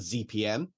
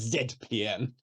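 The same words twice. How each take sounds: First: The letter Z is said the American way. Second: The letter Z is said the Canadian way. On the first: "the Americans keep calling a Z P M" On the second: "Rodney ... will proudly pronounce it Z P M"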